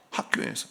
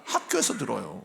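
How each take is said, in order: First: Whispered echo. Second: Said in the usual way. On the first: Real, not acted. Preacher echoes his own answer, whispering. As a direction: whisper 학교에서 with no voice.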